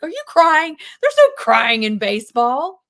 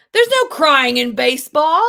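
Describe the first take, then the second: First: Loud, higher incredulous shout; gruff coach yell. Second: Loud, higher barked line; movie quote shout. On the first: Retold or imitated. Coach yelling at crying player, loud. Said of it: "And he's like". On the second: Acted. Teacher quoting baseball coach to class, loud bark.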